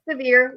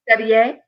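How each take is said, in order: First: The name is said like the English word severe. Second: The name is said with a French-style pronunciation. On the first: The speaker calls it right. "like a thunderstorm" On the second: The speaker calls it wrong. "Everyone wants to make it French"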